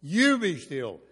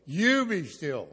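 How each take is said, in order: First: Booming "You be still" with YOU stressed. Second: "You be still" slow and loud, YOU leaned on; slow, weighty command with YOU stressed. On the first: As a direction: hit "You" hard in "You be still". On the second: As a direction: drag out "You be still", pressing YOU. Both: Shown as a demonstration. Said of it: "You is understood as the subject".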